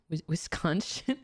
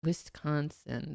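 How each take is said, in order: First: Halting "Wis-, Wisconsin?" with a questioning rise on the end; broken-off "Wis-" then a rising "Wisconsin?"; stumbling Wisconsin. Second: Slow, deliberate "Wisconsin." with a settled falling close; unhurried "Wisconsin" spoken firmly with the full name; careful Wisconsin. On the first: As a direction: trip over "Wisconsin" and ask it back unsure. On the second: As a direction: sound out "Wisconsin" slowly until it lands right. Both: Shown as a demonstration. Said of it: "There we go".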